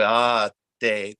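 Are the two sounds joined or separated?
separated. A short break separates ah from te. The speaker calls it wrong. "there's a break"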